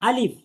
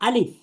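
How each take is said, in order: Both takes have the same delivery.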